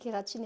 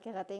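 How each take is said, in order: First: The word ends with a clear "een" sound. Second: The word ends with a nasal vowel. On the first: The speaker calls it right. "on dit kératine" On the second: The speaker calls it wrong. "et pas kératin"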